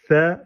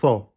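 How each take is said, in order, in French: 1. La voyelle est fine, comme 'e'. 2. La voyelle est ouverte, comme 'a'. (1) "C et pas sa" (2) "pas sa"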